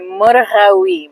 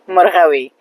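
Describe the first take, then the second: First: The word is said slowly and drawn out. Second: The word is said at a natural speed. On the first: The speaker calls it wrong. "If I were to slow it down, it would be murgawi" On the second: The speaker calls it right. "natural way and pace would be murgawi"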